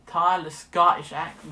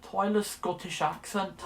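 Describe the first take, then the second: First: Scottish attempt coming out American; American-sounding fake Scottish, slow; botched Scottish accent. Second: Slow, tentative stab at Scottish; unconvincing Scottish lilt; poor Scottish accent. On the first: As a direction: try Scottish but slip into American. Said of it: "that's American". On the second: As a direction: try a Scottish accent, not very well. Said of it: "I'm not very good at Scottish". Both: Shown as a demonstration.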